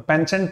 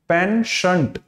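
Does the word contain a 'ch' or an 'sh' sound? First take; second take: ch; sh. First: The middle consonant is a 'ch' sound. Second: The middle consonant is an 'sh' sound. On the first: The speaker calls it wrong. "पेंशंट नहीं है वो" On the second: The speaker calls it right. "च तो है ही नहीं, च नहीं होता"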